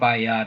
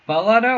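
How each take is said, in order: First: The middle consonant is a Y sound. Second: The middle consonant is an L sound.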